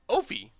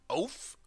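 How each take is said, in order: First: The word ends on a vowel sound. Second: The word ends on an f sound. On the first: The speaker calls it right. "it's got to be Ophi" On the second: The speaker calls it wrong. "Is that the right way of saying it?"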